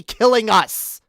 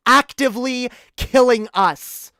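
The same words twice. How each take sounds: First: Killing slow and punched loud; stress on killing. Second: Higher, louder killing in the repeat; repeated stress on killing. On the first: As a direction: land hard on killing. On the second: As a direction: hammer killing home again. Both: Real, not acted.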